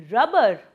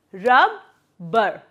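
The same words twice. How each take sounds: First: Said in the usual way. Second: "Rubber" broken in two with a pause in the middle; syllable by syllable. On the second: Shown as a demonstration. Teacher showing two syllables, "Rubber" syllable by syllable. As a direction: say "Rubber" as two separate beats. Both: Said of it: "breaking the word down".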